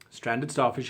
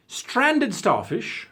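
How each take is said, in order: First: Said in the usual way. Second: High, slow rising call of the name; drawn-out announcement. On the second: Shown as a demonstration. Calling out a viewer's name, slow and high. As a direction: stretch out Stranded and lift it high.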